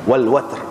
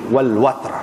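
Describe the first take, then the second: The two takes are said the same way.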